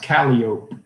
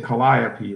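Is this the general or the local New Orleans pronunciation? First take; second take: local; general. First: It is said the local New Orleans way. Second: It is said the general, widespread way. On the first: "In New Orleans, it's pronounced Calliope" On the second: "Like everybody else would say Calliope"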